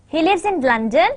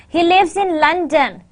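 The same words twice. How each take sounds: First: "London" lifts in a questioning rise; rising question. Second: "London" falls as a finished statement; falling statement. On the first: Teacher showing intonation patterns, rising tune on London. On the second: Teacher showing intonation patterns, falling tune on London. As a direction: close the sentence down on LONDON. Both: Shown as a demonstration. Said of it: "did you find any kind of intonation pattern".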